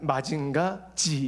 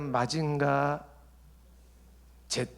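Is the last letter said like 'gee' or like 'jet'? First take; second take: gee; jet. First: The final letter sounds like 'gee'. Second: The final letter sounds like 'jet'. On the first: The speaker belongs to the younger generation. "요즘 젊은이들은 마징가 G 이래야 됩니다" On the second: The speaker belongs to the older generation. "벌써 기성세대야"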